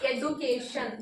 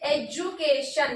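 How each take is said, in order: First: The middle consonant is a plain d sound. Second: The middle consonant is a j sound. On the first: The speaker calls it wrong. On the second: The speaker calls it right. "this always pronouncing the j sound"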